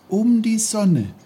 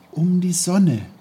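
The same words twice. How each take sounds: First: Put-on higher still, louder, dreamy boyish echo; young Peter musing. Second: Put-on high, louder boyish voice, wondering; a boy dreamily repeating a thought; young Peter musing. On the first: Peter echoing his own thought, even higher and dreamier. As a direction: let the repeat float up even higher. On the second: Peter thinking aloud, musing in a high boyish voice. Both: A narrator's reading. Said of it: "dachte er bei sich".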